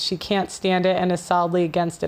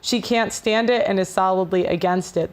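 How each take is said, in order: First: It is read at a faster pace. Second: It is read at a slower pace.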